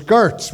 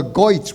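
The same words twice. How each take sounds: First: Said in the usual way. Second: "Goitz" with an OY vowel; Brooklyn pronunciation. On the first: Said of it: "If you remember". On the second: Shown as a demonstration. Explaining uncle's word, "Goitz" with Brooklyn OY. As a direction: say "Goitz", ER turned to OY. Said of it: "He spoke with a Brooklyn accent".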